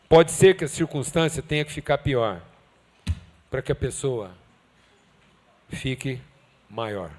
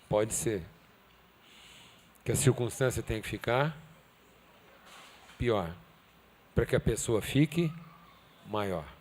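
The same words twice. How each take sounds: First: The sentence is spoken at a normal pace. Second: The sentence is spoken slowly and deliberately.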